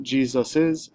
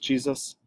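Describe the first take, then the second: First: "Jesus's" with a third S sound, ending in "-sus-iz"; extra S sound. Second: Said in the usual way. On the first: Shown as a demonstration. Teacher shows learners the form to avoid, "Jesus's" with an extra S sound. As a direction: say "Jesus's" with an added "iz" syllable. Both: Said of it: "wouldn't add a third S sound".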